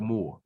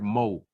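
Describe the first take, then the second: First: The word ends with an R sound. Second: The word ends without an R sound. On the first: "instead of more" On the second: "he used the word mo"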